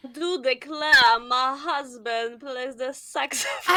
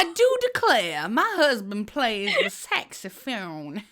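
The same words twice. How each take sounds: First: Slow mock Southern belle accent. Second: Slow mock Southern belle accent, a bit louder. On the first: Friend demonstrating Hillary as a Southern belle, slow. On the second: Copying her friend's Southern belle line, slow. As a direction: drawl it back like a Southern belle. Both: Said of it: "cette fille qui vient du Sud".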